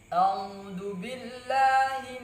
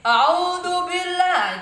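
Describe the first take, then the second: First: It is said at a moderate, calm volume. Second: It is said loudly, almost shouting. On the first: The speaker calls it right. "itu suara sedang" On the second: The speaker calls it wrong. "Kalau suara keras seperti ini"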